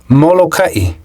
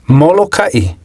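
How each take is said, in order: Both takes have the same delivery.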